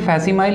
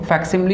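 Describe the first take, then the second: First: The word ends with a 'mile' sound. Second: The word ends with a 'lee' sound. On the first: The speaker calls it wrong. "हम इसे फैसिमाइल नहीं बोल सकते" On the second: The speaker calls it right. "इसका सही pronunciation है"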